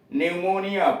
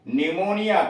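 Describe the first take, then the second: First: निमोनिया again as nemonija, the p still silent; silent p demo. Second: निमोनिया said as nemonija, no p sound at the start; silent p demo. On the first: Teacher repeating for class, निमोनिया with silent p. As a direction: repeat निमोनिया, p never sounded. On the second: Teacher to class, saying निमोनिया with p silent. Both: Shown as a demonstration. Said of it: "पी silent है".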